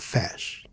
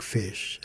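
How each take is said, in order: First: Fez with an open e, like eh. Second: Fez with a closed e, as in mesa. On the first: Teacher showing how it does not sound, open E. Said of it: "Shouldn't it be open". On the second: Teacher explaining a vowel to learners, closed E. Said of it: "had a long closed E". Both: Shown as a demonstration.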